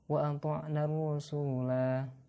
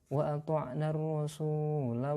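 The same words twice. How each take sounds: First: The final vowel is held long before stopping. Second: The final vowel is short, running into next words. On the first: The reading stops at this word. "Kalau berhenti dibaca pan, panjang" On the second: The reading continues past this word. "Tetapi kalau dilanjutkan"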